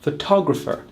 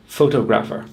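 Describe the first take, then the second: First: "photographer" as fuh-TOG-ruh-fer; stress on second syllable. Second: "photographer" wrongly as FOH-toh-graf-er; stress on first syllable. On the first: Teacher modelling the correct stress, second syllable. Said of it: "put the stress on the second syllable". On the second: Teacher showing what not to say, first syllable stressed. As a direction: lean on FOH in "photographer", full vowels after. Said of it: "not the first syllable". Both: Shown as a demonstration.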